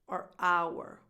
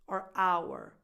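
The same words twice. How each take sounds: First: The first word is reduced and weak. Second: The first word is reduced and weak.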